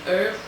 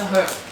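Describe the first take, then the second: First: The word starts with no h sound. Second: The word starts with a clear h sound. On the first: "as the Americans say. I don't know why they don't pronounce the H" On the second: "It's a herb"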